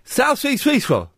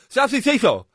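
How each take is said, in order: First: The phrase is said slowly. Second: The phrase is said at normal speed.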